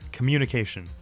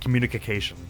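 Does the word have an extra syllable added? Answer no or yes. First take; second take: no; yes. First: The word is said with its usual syllables. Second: The word is said with an extra syllable.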